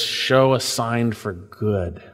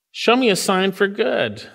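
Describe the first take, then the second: First: Slow, lower, earnest "Show a sign for good"; humble petition. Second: "Show me a sign for good" pitched higher, as a challenge; demanding God prove himself. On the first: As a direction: ask it gently and trustingly. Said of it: "He's God's man, a man after God's own heart". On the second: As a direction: push God to deliver, testing him. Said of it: "Some say David's testing God". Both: Retold or imitated.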